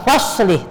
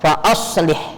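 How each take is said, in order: First: The glottal stop is dropped, sounds run together. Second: The glottal stop is pronounced clearly after fa. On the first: The speaker calls it wrong. "bacanya enggak enggak faslih" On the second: The speaker calls it right. "tapi fa aslih, tetap si hamzahnya harus dibaca"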